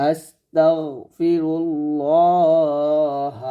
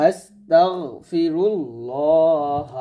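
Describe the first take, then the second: No difference in how they are said.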